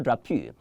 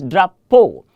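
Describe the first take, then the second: First: "drapeau" said softly as dra-poo; quiet "drapeau" with an OO ending instead of O; wrong pronunciation. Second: "drapeau" firmly ending on a pure O; louder "drapeau", the EAU sounded as a long O; correct French pronunciation. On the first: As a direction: end "drapeau" on OO, as the mistake. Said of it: "it's not drapeau". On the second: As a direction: say "drapeau" loudly as dra-POH. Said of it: "is pronounced as O". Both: Shown as a demonstration.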